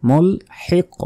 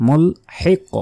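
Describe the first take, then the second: No difference in how they are said.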